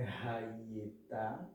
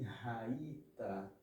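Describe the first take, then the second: First: "raieta" slowly, with an e before "ta"; slow counterexample "raieta"; wrong pronunciation. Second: "raita" slowly and softly, no e before "ta"; soft, slow model "raita"; correct pronunciation. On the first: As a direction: sound the middle vowel in "raieta". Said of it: "não é raieta". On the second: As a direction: say "raita" with "rai" closed and strong. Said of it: "e sim raita". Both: Shown as a demonstration.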